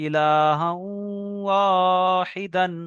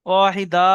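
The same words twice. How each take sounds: First: ইলাহা ওয়াহিদান slow, held nasal, closing on a clear n; tanwin ending. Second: ওয়াহিদা ending in an open long a, no n; stop on long a. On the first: Teacher showing students the tanwin reading, drawn out with final n. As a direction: end ওয়াহিদান with an n sound. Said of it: "তানবিন পড়বেন". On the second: Teacher showing the reading by the qaida rule, open long final a. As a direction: end ওয়াহিদা on a stretched vowel. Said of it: "ওয়াহিদা পড়বেন কায়দা অনুযায়ী". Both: Shown as a demonstration.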